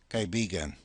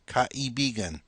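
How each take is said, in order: First: The word is said quickly and run together. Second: The word is said slowly and carefully.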